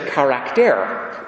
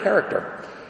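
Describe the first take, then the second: First: The word has a Greek-style pronunciation. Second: The word has its usual English pronunciation. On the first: "They just pronounce it charakter" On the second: "It's actually a Greek word"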